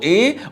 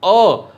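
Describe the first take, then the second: First: The word is a full ay sound. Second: The word is a short weak uh sound. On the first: It is said alone or the next word is emphasized. "विशेष जोर देना हो तो ए को ए" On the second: It is said in normal speech. "Normally ए का उच्चारण अ"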